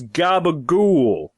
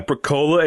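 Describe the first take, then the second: First: The word is pronounced in an Italian-style way. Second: The word is pronounced in a plain English way. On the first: The speaker calls it right. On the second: The speaker calls it wrong. "It's not"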